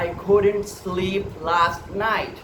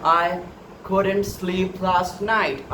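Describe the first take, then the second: Both takes have the same delivery.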